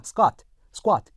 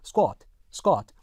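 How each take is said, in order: First: SQUAT with an unrounded "ah": skwaht; American open vowel. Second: SQUAT with a short rounded "o": skwot; British rounded vowel. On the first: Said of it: "미국, 일반 미국 영어". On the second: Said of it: "영국 영어에서는요". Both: Shown as a demonstration.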